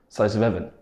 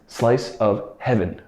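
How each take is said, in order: First: The h at the start of heaven is dropped. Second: The h at the start of heaven is pronounced. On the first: "in native speed, speech, would be pronounced something like" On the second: "usually it's actually pronounced with the H sound"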